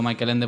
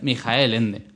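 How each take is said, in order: First: The first name is said the English way. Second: The first name is said the German way. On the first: The speaker calls it wrong. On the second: The speaker calls it right.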